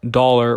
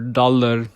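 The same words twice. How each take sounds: First: The word is said in a plain English accent. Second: The word is said in a Punjabi accent.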